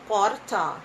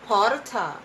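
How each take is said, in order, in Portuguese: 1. É falado com sotaque da cidade de São Paulo. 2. É falado com sotaque da cidade de São Paulo.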